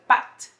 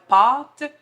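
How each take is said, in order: First: The A vowel is short and front. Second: The A vowel is long and back.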